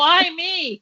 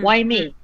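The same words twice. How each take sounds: First: It sounds panicked and frantic. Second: It sounds calm, reflective and tender.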